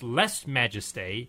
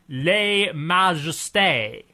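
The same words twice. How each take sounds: First: The term is said with an anglicized pronunciation. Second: The term is said with a French pronunciation. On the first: The speaker calls it wrong. "is not pronounced" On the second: The speaker calls it right. "It's pronounced Les Majestés. With French pronunciation"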